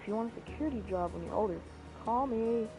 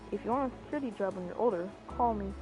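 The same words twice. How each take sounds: First: The voice cracks partway through the line. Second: The voice stays steady through the line. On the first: The speaker calls it wrong. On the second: The speaker calls it right.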